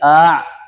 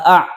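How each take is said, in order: First: The vowel is a smooth long a sound. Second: The vowel starts with a clear glottal catch. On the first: "Kalau dibaca alif a, salah" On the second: "Kalau dibaca hamzah a"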